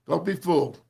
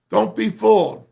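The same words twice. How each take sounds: First: Said in the usual way. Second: Loud, sharp warning with the voice jumping up; emphatic warning. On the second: Real, not acted. Coach warning his players, loud and emphatic. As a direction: warn the players hard.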